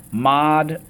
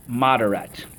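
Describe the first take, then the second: First: MODERATE split into three raised, separate syllables. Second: Said in the usual way. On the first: Shown as a demonstration. Teacher cueing the class on a new word, syllable by syllable. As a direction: sound out MODERATE as mod, er, at. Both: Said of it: "Okay, let's go".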